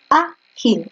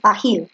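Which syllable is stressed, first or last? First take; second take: first; last. First: The stress is on the first syllable. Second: The stress is on the last syllable. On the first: The speaker calls it right. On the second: The speaker calls it wrong.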